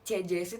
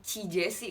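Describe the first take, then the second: First: The prefix has an 'eh' vowel, like the name. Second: The prefix has an 'ee' vowel, unlike the name. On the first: The speaker calls it wrong. "tuh nggak enak" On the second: The speaker calls it right.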